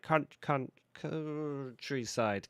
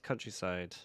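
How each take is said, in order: First: Put-on failed West Country accent. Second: Said in the usual way. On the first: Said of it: "I was trying to do it in a West Country accent". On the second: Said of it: "That's what I was trying to say".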